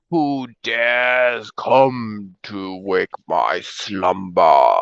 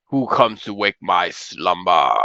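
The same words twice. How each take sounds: First: Slow, low booming ancient dragon; grinding stone statue. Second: Slow, low dragon rumble; grinding stone statue. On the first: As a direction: rumble it out like waking stone. GM voices waking dragon. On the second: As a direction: drag each word out like stone grinding. GM repeats dragon line. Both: Acted.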